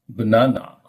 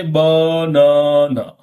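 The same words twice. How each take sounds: First: Said in the usual way. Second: BANANA stretched into three long, level, equally stressed syllables; every syllable equal. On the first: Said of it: "You simply say banana". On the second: Shown as a demonstration. Teacher showing learners what they cannot say, BANANA in even, drawn-out syllables. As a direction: give each syllable of BANANA the same length and force. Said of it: "You cannot say banana".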